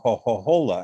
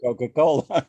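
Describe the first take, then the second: First: The c sounds are said as breathy h sounds. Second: The c sounds are said as hard k sounds. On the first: The speaker sounds like someone from Tuscany. "the letter C becomes an H" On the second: The speaker sounds like a standard Italian speaker. "instead of a Coca-Cola"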